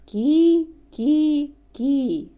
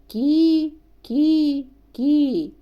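Both takes have the same delivery.

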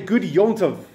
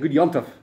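First: It is said at a normal, clear pace. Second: It is said fast with the words run together. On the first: "we say good Yom" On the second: "we say it really fast"

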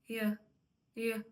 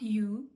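First: The word is said with a reduced weak vowel. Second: The word is said with a full clear vowel. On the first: The speaker calls it right. "дуже чітко воно при швидкому мовленні не вимовляється" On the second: The speaker calls it wrong. "Not you"

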